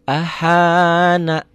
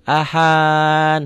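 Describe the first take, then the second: First: The word ends with an open vowel. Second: The word ends on a consonant. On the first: The speaker calls it wrong. "Sebetulnya baca seperti itu salah" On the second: The speaker calls it right. "kalau penggalan ini dibaca ahan, harus begitu"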